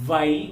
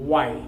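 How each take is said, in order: First: The first sound presses lower lip to teeth. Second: The first sound uses rounded, pushed-forward lips. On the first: The speaker calls it wrong. "కింద పెదవిని పై పళ్ళ వరుసతోటి నొక్కి పట్టి పలుకుతుంటాం" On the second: The speaker calls it right. "అలాగే పెట్టి"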